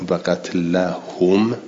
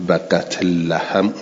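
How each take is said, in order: Both takes have the same delivery.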